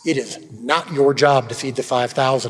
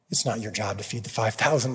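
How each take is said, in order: First: The tone is firm, stern and insistent. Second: The tone is gentle, kind and encouraging. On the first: The reminder comes as a firm correction. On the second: The reminder comes as gentle encouragement.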